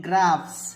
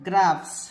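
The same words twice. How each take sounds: The two takes are said the same way.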